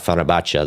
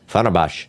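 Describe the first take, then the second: First: It is said with a 't' sound. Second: It is said without a 't' sound. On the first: "Unless you say like Fenerbahce, then I guess that's also possible" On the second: "See? No T pronounced"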